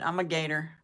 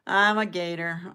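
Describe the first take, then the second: First: Said in the usual way. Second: I'm punched louder; stress on I'm. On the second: Shown as a demonstration. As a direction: lean hard on I'm in I'm a Gator.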